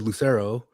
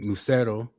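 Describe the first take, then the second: First: The name is pronounced the English way. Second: The name is pronounced the Spanish way. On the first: This is how the family used to say it. "We said Lucero" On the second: This is the name's original pronunciation. "we didn't say it like that"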